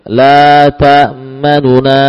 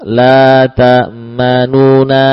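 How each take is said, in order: First: The vowel after the n is clipped short. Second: The vowel after the n is given full length. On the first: "kalau kita membaca ikhtilas, nun dibaca dengan 2/3" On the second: "kalau normal satu harokat"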